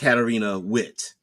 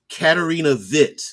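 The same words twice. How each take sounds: First: The surname begins with a W sound. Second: The surname begins with a V sound. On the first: The speaker calls it wrong. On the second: The speaker calls it right. "pronouncing the W like a V"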